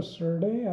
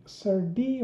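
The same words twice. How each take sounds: First: "surdy" ending in "day" instead of "dee". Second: "surdy" ending in a clear "dee". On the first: Offering an alternative name for the crate, "surdy" as sur-day. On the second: Unsure of the crate's name, offering "surdy" as sur-dee. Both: Shown as a demonstration. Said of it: "what is the right pronunciation".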